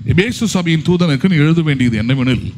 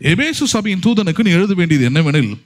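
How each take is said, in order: No difference in how they are said.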